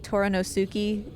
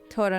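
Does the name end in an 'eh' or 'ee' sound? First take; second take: ee; eh. First: The name ends with an 'ee' sound. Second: The name ends with an 'eh' sound.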